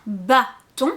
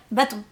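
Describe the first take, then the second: First: "bâton" en deux temps, bâ, pause, ton; détache bien les deux syllabes de "bâton"; mot décomposé. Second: Said in the usual way. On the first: Shown as a demonstration. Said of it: "Vous pouvez décomposer". (« bâton » découpé en syllabes) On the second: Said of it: "comme quand on parle normalement".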